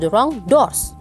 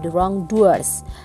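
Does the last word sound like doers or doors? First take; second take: doors; doers. First: The last word is one syllable, like doors. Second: The last word is two syllables, like doers. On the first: The light is not given to the wrong doors. The speaker calls it wrong. "Masih banyak yang bilangnya adalah" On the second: The light is not given to people who do wrong. The speaker calls it right. "yang maksud di sini adalah"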